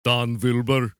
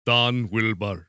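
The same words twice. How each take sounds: First: Attempted Russian that comes out German, V for W; loud mock-Russian slipping into German; botched Russian accent. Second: Put-on slow, low Russian accent with a W; corrected mock-Russian take on the name. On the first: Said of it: "No, that was German. The German does the V". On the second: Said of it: "No, that was German".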